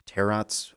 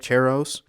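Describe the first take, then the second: First: "Tarots" said as TAIR-ots; sounded T. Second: "Tarots" said as TAIR-ohz; silent middle T. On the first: Host correcting the slip, "Tarots" as TAIR-ots. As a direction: say "Tarots" with the T heard before the S. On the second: Host slipping between versions, "Tarots" as TAIR-ohz. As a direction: say "Tarots" with a long O and no T. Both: Real, not acted. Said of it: "yell at me for mispronouncing it".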